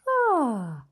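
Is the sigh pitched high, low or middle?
middle. The sigh is pitched in the middle. "and then go higher"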